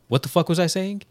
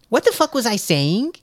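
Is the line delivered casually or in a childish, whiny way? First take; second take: casually; childish. First: The line sounds casual and natural. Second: The line sounds whiny and childlike. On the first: The speaker calls it right. "That's how that should have been said" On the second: The speaker calls it wrong. "It's like you're a child"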